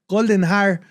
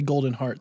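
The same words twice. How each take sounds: First: The name is said with a Spanish accent. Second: The name is said with an English accent. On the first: This is how people in Costa Rica say it. "They say Golden Heart" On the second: This is not how people in Costa Rica say it. "people don't say Golden Heart"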